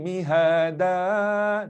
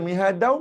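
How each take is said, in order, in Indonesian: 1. Kata ini berakhir dengan vokal a panjang. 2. Kata ini berakhir dengan bunyi n. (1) "Kalau berhenti mihada, dua rakaat" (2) "Kalau nak baca mihadau, memang kena sambung"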